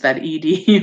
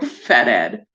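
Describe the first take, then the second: First: ED is spelled out as two separate letters. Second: ED is said as one short word. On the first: "Fed E D sounds better" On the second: "Aaron says Ed"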